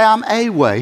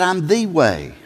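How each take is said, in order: First: Said in the usual way. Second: "the" pressed firmly as the one and only; emphatic "the" before way; stress on the. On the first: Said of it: "He didn't say". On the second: Shown as a demonstration. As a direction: weigh down on "the" in "I'm the way". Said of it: "He said".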